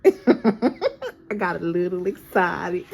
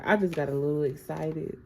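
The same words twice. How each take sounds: First: Slow, loud country drawl with laughter; amused imitation of a country accent. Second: Said in the usual way. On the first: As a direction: playfully stretch it out in a country accent. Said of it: "Somebody got a country accent".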